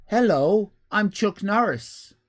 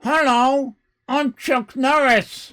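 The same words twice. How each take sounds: First: A lightly voiced Chuck Norris, slightly slow; mild attempt at the tough guy's greeting; bad Chuck Norris impression. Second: Louder, higher, slow tough-guy greeting; hammed-up Chuck Norris. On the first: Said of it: "It's a bad impersonation". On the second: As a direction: ham up the action hero's hello. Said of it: "Instantly recognizable".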